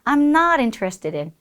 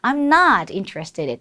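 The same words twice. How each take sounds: First: No word is given special stress. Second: The word not is stressed.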